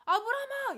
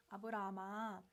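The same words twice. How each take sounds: First: Sudden high, loud cry to stop him; urgent shout. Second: Low-key, unhurried call to Abraham; calm call. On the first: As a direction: shout the name to halt him at once. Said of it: "이러면서 급하게 막으세요". (급하게 막는 높은 외침) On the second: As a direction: call the name calmly, without urgency. God first calls Abraham calmly. (차분하게 부르는 목소리) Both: Acted.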